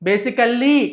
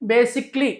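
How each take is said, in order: First: The word is said with four syllables. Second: The word is said with three syllables. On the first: The speaker calls it wrong. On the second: The speaker calls it right.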